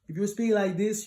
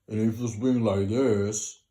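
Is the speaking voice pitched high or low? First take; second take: high; low. First: The voice is pitched unnaturally high. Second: The voice is pitched unnaturally low. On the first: The voice is not balanced. "you're not bringing your equilibrium of the frequencies" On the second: The voice sits below its natural level. "you're speaking below your natural voice"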